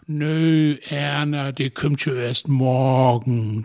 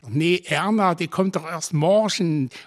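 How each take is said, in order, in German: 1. Er hat breite, gedehnte Vokale und gerollte R. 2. Er wird mit einem sächsischen Regionalakzent gesprochen. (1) "die ist so art wie Schnacken im Plattdütsch. Mit viel Vokale" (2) "Während in Sachsen, wo ich lebe, da schnacken sie allen so"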